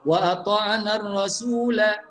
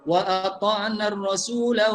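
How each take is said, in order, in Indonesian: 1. Vokal akhir kata terakhir pendek. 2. Vokal akhir kata terakhir pendek.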